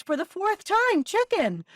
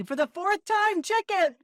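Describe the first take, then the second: First: High, loud exasperated snap; fed up, say it for the fourth time. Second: High, louder mock exasperation; mock exasperated. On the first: Retold or imitated. Wife to her husband, exasperated and loud. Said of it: "She looks at him exasperated and says". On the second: Quoting the punchline between friends, mock exasperated. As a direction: toss off the punchline in a fed-up voice. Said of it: "If someone does".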